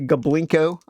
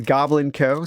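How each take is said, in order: First: The name runs together as one word. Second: The name is said as two separate words. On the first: The speaker calls it wrong. "I used to say Goblinko" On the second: The speaker calls it right. "I'm going to say it correctly"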